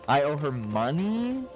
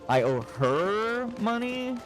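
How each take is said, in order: First: The word money carries the main stress. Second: The word her carries the main stress. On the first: The debt is money rather than something else. "You're surprised that you owe her money instead of something else" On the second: The debt is owed to her rather than someone else. "you're surprised you owe her money and not someone else"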